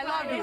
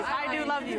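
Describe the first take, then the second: First: Said in the usual way. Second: "do" pushed up and louder, rest of "I do love you" even; stress on do. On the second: Real, not acted. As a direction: lean hard on "do" to insist.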